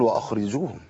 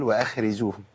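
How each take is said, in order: First: "واخرجوهم" with a thick, dark "akh"; over-heavy kha. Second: "واخرجوهم" as thin "wa-akheriju", kha loosened; too-light kha. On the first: Teacher showing what not to say, "واخرجوهم" with heavy kha. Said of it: "لا هي مفخمه قوي". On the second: Teacher showing the opposite mistake, "واخرجوهم" with weak kha. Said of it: "ضعيفه تفخيما". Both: Shown as a demonstration.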